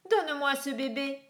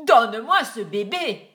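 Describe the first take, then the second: First: Said in the usual way. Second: Much louder, "Donne-moi" barked down; shouted. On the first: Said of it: "lui demanda-t-il". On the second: A narrator's reading. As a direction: roar the demand at her. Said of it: "cria-t-il".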